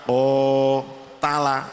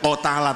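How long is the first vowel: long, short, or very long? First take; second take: long; short. First: The first vowel is held long. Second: The first vowel is short. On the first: The speaker calls it right. "tapi o tala, itu namanya sudah menunjukkan panjang" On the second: The speaker calls it wrong. "tidak o tala"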